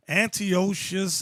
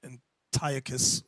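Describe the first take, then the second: First: Antiochus said an-tee-OH-shus, drawn out slowly; first pronunciation. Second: Antiochus said an-TIE-uh-kus, slow and low; alternative pronunciation. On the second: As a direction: stress TIE in Antiochus, ending in a hard kus. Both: Shown as a demonstration. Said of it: "Some people pronounce his name".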